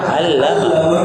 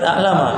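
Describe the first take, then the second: First: It starts with a throaty ain and doubled l. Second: It starts with a glottal stop and a short l. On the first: The speaker calls it right. "langsung pakai ain, lamnya bertasydid" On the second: The speaker calls it wrong. "kalau kita baca a'lama berarti ada hamzah"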